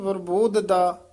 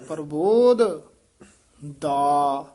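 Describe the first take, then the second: First: The dh and d sounds are merged together. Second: A dh sound is followed by a separate d. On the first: The speaker calls it wrong. "ਇਹ ਨਹੀਂ" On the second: The speaker calls it right. "ਇਹ ਧੱਦਾ ਪਹਿਲਾਂ ਲਾਉਣਾ ਹੈ"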